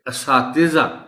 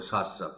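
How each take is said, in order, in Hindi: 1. t और z के बीच एक छोटा i सुनाई देता है। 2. t और z के बीच कोई स्वर सुनाई नहीं देता। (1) "ते के नीचे जेर का खास ख्याल रखा जाना चाहिए" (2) "हम इसको असातिज़ा पढ़ जाते हैं"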